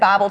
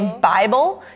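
First: The vowel in the first syllable sounds Southern. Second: The vowel in the first syllable sounds standard. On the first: "You said Bible trivia. Like you said the I Southern" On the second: "You didn't say Bible"

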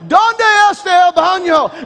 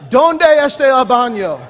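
First: It is hollered loudly. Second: It is said at normal loudness.

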